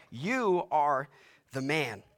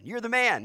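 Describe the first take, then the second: First: "You" weighted, "man" falling, slow and grave; stress on You. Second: High, bright buddy compliment; casual praise. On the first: Preacher demonstrating the accusing reading, grave. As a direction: accuse him, landing on You. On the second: Preacher mimicking a friendly compliment, upbeat. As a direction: toss it off as praise. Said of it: "not in the way we like to hear". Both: Shown as a demonstration.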